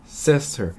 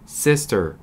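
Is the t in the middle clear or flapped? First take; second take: clear; clear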